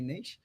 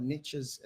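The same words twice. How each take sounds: First: "niche" said as NEESH; Australian pronunciation. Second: "niches" said as NITCH-iz; alternative pronunciation. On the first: Telling listeners the local way, "niche" pronounced NEESH. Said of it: "here in Australia, we say niche". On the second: Explaining how others say it, "niches" pronounced NITCH-iz. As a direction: say "niches" with a short i and a tch. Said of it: "as some people say in the world". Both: Shown as a demonstration.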